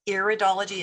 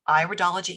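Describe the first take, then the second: First: The first syllable does not sound like 'eye'. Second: The first syllable sounds like 'eye', as in iris. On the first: The speaker calls it wrong. "some people mispronounce the word. It is not iridology" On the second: The speaker calls it right. "It is an iris, so it's iridology"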